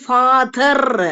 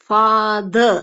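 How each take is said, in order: First: The th sound is pressed hard and strongly. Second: The th sound is said lightly and softly. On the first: The speaker calls it wrong. "அழுத்தி நம்ம இங்க உச்சரிக்க தேவை கிடையாது" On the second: The speaker calls it right. "லைட்டா th த sound சொன்னா போதும்"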